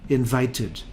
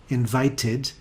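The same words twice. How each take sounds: The two takes are said the same way.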